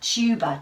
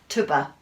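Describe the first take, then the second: First: The first vowel sounds like the letter name 'you'. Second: The first vowel is a short 'uh' sound. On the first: The speaker calls it right. "Let's try the U" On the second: The speaker calls it wrong. "Let's try an uh"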